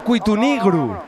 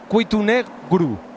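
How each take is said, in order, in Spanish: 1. La vocal antes de -gru es una i cerrada. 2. La vocal antes de -gru es una e abierta. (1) "en Lena, el bable que allí se habla, sería" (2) "en el asturiano normativo"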